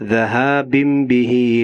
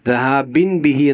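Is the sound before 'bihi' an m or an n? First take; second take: m; n. First: A nasal m sound comes before bihi. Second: A plain n sound comes before bihi. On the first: The speaker calls it right. "തെൻവീന് ശേഷം ബാ വന്നു" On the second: The speaker calls it wrong. "എന്ന് ഓതാൻ പാടില്ല"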